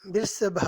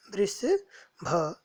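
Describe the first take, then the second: First: Said in the usual way. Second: "वृषभ" stretched out very slowly, syllable by syllable, rising at the end; slow teaching model of "वृषभ"; slow careful repeat. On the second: Shown as a demonstration. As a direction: draw out "वृषभ" so students can copy it. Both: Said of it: "पदानि उच्चार्य".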